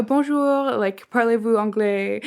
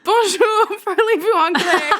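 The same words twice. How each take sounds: First: Lightly put-on accent in French. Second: High, loud, laughing mimicry; mimicked eager tourists. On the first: Server coaching an American on French greetings, lightly accented. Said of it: "he did, like, the accent". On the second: New Zealand couple copying the server's tip, gleefully high. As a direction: parrot the French greeting high and gleeful. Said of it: "And they were like".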